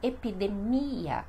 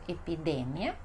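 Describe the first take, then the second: First: "epidemia" as e-pi-de-MI-a, stress on MI; Portuguese pronunciation. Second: "epidemia" as e-pi-DE-mia, stress on DE; Spanish pronunciation. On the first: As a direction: draw out MI in "epidemia". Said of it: "e no português". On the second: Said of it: "temos no espanhol". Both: Shown as a demonstration.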